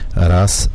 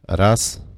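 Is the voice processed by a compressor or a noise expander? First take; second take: compressor; expander. First: The voice passes through a dynamic compressor. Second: An expander cuts out the background noise. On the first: "mamy w tej chwili załączony dodatkowo kompresor dynamiki w mikrofonie" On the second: "załączony tak zwany ekspander, który eliminuje wszystkie niepotrzebne odgłosy dobiegające z tła"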